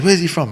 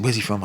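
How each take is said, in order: First: "Where's he from?" barked high and loud; retold shout. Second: Said in the usual way. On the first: Fighter yelling a question before his bout, loud shout. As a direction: demand it at full volume. Marco shouting in change room.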